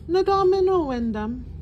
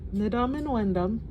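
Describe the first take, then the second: First: Each syllable is drawn out and overly careful. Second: It flows smoothly at a relaxed natural pace. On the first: The speaker calls it wrong. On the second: The speaker calls it right.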